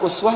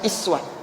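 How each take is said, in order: First: The word begins with an 'u' vowel. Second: The word begins with an 'i' vowel. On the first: "Uswah harakatnya di mana? ... Dhammah" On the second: "bacaannya bukan uswah tapi iswah"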